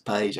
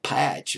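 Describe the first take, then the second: First: The name ends with a 'j' sound. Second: The name ends with a 'ch' sound. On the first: The speaker calls it right. "but it's Page, I guess" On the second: The speaker calls it wrong. "I thought it was like Patch or something like that"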